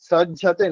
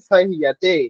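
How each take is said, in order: First: The middle consonant is pronounced like 'j'. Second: The middle consonant is pronounced like 'y'. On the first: The speaker calls it wrong. "সজ্জাতে নয়, জ উচ্চারণ করলে হবে না" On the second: The speaker calls it right. "য়, সহিয়াতে"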